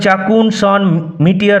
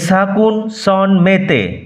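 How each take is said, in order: First: Chacun starts with ch; métier ends in -tiyar. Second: Chacun starts with s; métier ends in -te. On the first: The speaker calls it wrong. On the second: The speaker calls it right.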